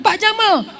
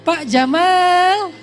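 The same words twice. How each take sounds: First: The vowel in Jamal is kept short. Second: The vowel in Jamal is drawn out long. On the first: It calls him a camel. The speaker calls it wrong. "Jangan Pak Jamal" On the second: It calls him beautiful. The speaker calls it right. "gitu panggilnya"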